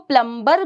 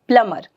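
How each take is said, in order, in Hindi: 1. b की ध्वनि बीच में बोली जाती है। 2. b की ध्वनि पूरी तरह छोड़ दी जाती है। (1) "इसको प्लम्बर भी बोल देते हैं" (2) "बी साइलेंट होता है"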